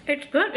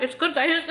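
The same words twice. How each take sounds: First: Said in the usual way. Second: Says it through a laugh; giggling with a full mouth. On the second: Real, not acted.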